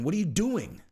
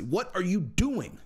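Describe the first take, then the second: First: Said in the usual way. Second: Slow and pointed, each word drawn out; slow, leaning in. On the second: Real, not acted. Vlogger pressing Connor, slow and pointed. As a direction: drag it out, pressing him for an answer.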